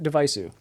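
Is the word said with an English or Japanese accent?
Japanese. It is said with a Japanese accent. "if you're speaking with a Japanese accent"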